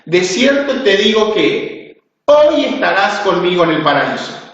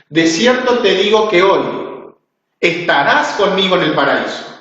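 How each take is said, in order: First: There is a pause right before 'hoy'. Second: There is a pause right after 'hoy'.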